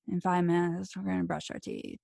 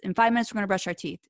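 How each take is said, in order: First: It is said weakly and unsurely. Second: It is said firmly and confidently.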